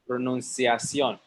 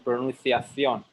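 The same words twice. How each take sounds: First: The middle consonant sounds like an 's'. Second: The middle consonant sounds like a 'th'. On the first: "in Mexico, en español decimos pronunciación" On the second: "in España, dicen pronunciación... They don't say the S"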